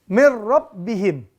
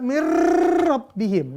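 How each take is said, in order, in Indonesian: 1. n menyatu dengan lancar ke r yang normal. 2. r dilebih-lebihkan dengan getaran panjang.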